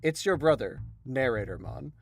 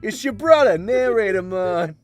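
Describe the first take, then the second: First: It is read in a plain, ordinary voice. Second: It is read in a New England accent. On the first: "I assume that you wanted me to read that in a particular voice" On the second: "sounded like a New England kind of accent with Ma"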